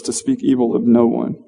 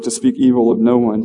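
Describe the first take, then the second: First: "no" leaned on, a little longer and stronger; preacher rereads verse to land on "no"; stress on no. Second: Said in the usual way. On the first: Shown as a demonstration. Preacher stressing "no" to his congregation. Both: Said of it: "I wanna emphasize a couple of things".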